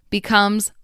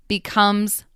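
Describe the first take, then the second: Both takes have the same delivery.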